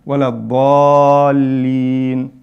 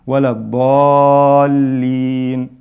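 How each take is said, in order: No difference in how they are said.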